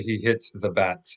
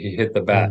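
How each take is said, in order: First: The final T sound is clearly released. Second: The final T sound is dropped off. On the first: "we don't say" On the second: "We kind of drop off that T"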